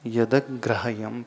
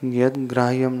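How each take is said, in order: First: The d is followed by an a vowel. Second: The d is cut off with no vowel. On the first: The speaker calls it right. "उसे यदक ग्राह्यम पढ़ना" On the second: The speaker calls it wrong. "नहीं पढ़ना"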